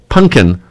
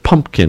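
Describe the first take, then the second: First: The word is said as 'punkin', without 'mp'. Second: The word is said with a full 'mp' sound. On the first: The speaker calls it right. "so it can rhyme more" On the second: The speaker calls it wrong. "it's not pumpkin"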